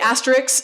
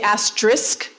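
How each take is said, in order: First: The word ends with a k then s sound. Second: The word ends with an s then k sound. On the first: "My K and S have swapped" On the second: "I have shortened the middle syllable on that"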